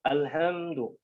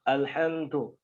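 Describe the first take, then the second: First: The d is released without a puff of air. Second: The d is released with a puff of air. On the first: The speaker calls it right. "jadi lebih seperti D biasa" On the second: The speaker calls it wrong. "ya bukan alhamdu"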